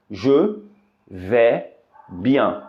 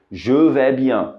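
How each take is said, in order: First: "Je" "vais" "bien" slowly with pauses between; syllable by syllable. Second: Said in the usual way. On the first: Shown as a demonstration. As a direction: spell it out word by word. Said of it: "é com a frase".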